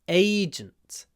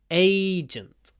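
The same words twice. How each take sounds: First: The stress is on the first syllable. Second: The stress is on the first syllable.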